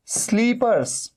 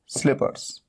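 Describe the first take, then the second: First: Slippers dragged out slowly, the wrong way to say it. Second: स्लीपर्स whispered, soft and quick; whispered answer. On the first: Teacher shows the wrong word to avoid, slowly. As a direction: slowly stretch out स्लीपर्स as the word not to use. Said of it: "स्लीपर्स नहीं बोलना है". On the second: Teacher whispers the right word to students. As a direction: breathe स्लीपर्स out as a prompt. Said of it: "इसे क्या बोलना है?". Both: Shown as a demonstration.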